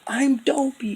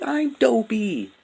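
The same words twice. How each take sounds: First: Very high put-on voice, imitating Dopey. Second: Very high, slow put-on voice; imitating Dopey. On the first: Imitating Dopey introducing himself, very high put-on voice. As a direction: squeak it out as the dazed friend. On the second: Imitating Dopey repeating his name, slow and very high. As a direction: stretch it out high and dazed. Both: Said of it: "he's like".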